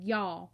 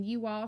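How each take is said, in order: First: "y'all" run into one Southern syllable; Southern contraction. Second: Said in the usual way. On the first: Shown as a demonstration. Mama talks Southern when worried, "y'all" as one syllable. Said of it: "she said". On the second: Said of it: "instead of saying".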